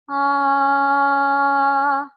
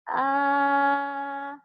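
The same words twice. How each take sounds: First: The vowel sounds open and resonant. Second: The vowel sounds tight and nasal. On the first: The speaker calls it right. "if you just drop your jaw and open up the space" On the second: The speaker calls it wrong. "it's really nasally, it doesn't sound nice"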